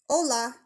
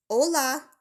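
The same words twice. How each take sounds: First: Spanish hello called across the clearing; calling a greeting from a distance. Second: Hola called out higher and louder; repeating the greeting louder to be heard. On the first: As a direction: call out a friendly hola. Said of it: "she called out". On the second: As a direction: call it again, bigger, with a wave. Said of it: "she said again with a wave". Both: Acted.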